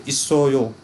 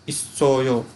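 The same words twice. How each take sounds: Both takes have the same delivery.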